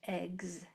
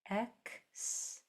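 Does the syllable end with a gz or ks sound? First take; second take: gz; ks. First: It ends with a voiced gz sound. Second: It ends with a voiceless ks sound. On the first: "or it can sound like eggs" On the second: "It can say E X"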